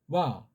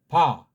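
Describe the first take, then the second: First: It starts with a light, soft lip glide. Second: It starts with a full stop of the lips. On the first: "이거는 이제 떠 있는 거니까 와" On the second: "안 떠 있으면 그냥 이게 만약에 이제 아라고 하면 봐"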